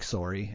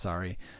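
First: It is said with a Canadian accent. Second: It is said with an American accent. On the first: "every time a Canadian says, like, sorry" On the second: "instead of sorry"

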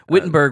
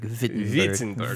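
First: The name begins with an English W sound. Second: The name begins with a V sound. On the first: This is the usual local way of saying it. "Wittenberg would be how we say it" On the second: This is the native way of saying it. "I think it's a W-V sound, so it'd probably be like Wittenberg"

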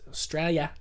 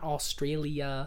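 First: It is pronounced the Australian way. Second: It is pronounced the American way. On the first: The speaker calls it right. "It's Australia" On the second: The speaker calls it wrong. "Most gringos say"

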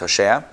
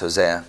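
First: The name is said with Hebrew pronunciation. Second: The name is said with English pronunciation. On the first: "but in the Hebrew it's Hosea" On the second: "I guess it's Hosea"

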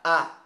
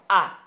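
First: The vowel is made high in the mouth. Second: The vowel is made forward in the mouth. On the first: This is the Spanish way of saying it. "Os do espanhol são sempre pra cima" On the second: This is the Portuguese way of saying it. "os sons do português, eles são sempre pra frente"

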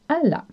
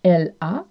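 First: It is contracted with the vowels merged. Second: It is said in full with a clear l.

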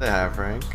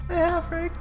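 First: It is said in his normal voice. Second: It is said in a put-on girl's voice.

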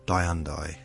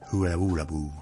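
First: The name uses the familiar, long-used pronunciation. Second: The name uses the newly advertised pronunciation. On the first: This is how the name has always been said locally. "for the last 150 years, I've been calling it Hyundai" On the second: This is the pronunciation the company now promotes. "And now you're telling me it's"

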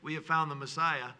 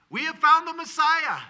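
First: It is said in a calm, plain tone. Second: It is said with joyful excitement.

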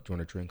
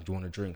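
First: The question is said plainly, without extra force. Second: The question is said with heavy, forceful emphasis.

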